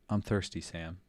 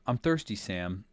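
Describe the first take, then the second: First: It is said more quietly. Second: It is said at normal loudness.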